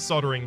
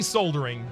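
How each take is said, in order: First: It uses the pronunciation heard on those TV shows. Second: It uses the usual Australian pronunciation of the word. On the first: This pronunciation was picked up from foreign television. "I say soldering because I grew up on that kind of media" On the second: This is how most Australians say it. "We say soldering"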